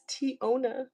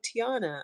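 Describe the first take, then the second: First: The middle vowel sounds like 'oh'. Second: The middle vowel sounds like 'ah'. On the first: The speaker calls it right. "That's not how you say my name. It's Tiona" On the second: The speaker calls it wrong. "people always call me Tiana"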